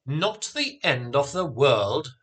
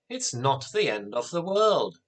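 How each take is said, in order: First: Mildly indignant echoed question; incredulous exclamation. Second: Said in the usual way. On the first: A narrator's reading. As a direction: throw it back as a disbelieving question. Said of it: "her father exclaimed". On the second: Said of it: "Anthea exclaimed".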